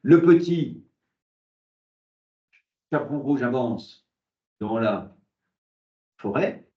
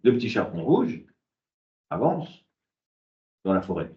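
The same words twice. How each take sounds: First: Pauses ignore the grammatical word groups. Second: Pauses fall between the grammatical word groups.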